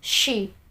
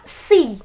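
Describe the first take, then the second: First: It starts with a rounded sh sound. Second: It starts with a plain s sound. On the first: The speaker calls it right. "tapi suara shuin" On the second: The speaker calls it wrong. "Jangan seperti suara sin"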